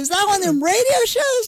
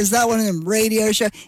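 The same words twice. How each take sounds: First: The question sounds eager and excited. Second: The question sounds flat and uninterested.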